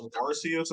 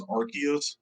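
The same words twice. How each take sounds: First: "Arceus" said AR-see-us; soft-c pronunciation. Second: "Arceus" said AR-kee-us; hard-c pronunciation. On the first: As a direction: say "Arceus" with an S sound for the c. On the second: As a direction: say "Arceus" with a K sound for the c. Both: Shown as a demonstration. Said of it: "I've heard it as".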